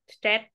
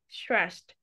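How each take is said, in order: First: The word is said with a Vietnamese accent. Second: The word is said with a standard pronunciation. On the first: The speaker calls it wrong. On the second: The speaker calls it right.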